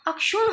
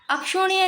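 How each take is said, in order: First: "अक्षुण" ending on retroflex n; corrected pronunciation. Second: "अक्षुण्य" high, with final nya; rejected pronunciation. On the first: Teacher giving the correction, "अक्षुण" with no y glide. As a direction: close "अक्षुण" without any y. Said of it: "अक्षुण होता है". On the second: Teacher showing the error, "अक्षुण्य" with final nya. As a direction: end "अक्षुण्य" on a y glide. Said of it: "अक्षुण्य नहीं". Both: Shown as a demonstration.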